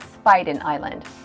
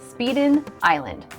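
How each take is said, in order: First: The first syllable sounds like 'spy'. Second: The first syllable sounds like 'speed'. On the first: This is how locals say the name. The speaker calls it right. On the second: This is how outsiders say the name. The speaker calls it wrong.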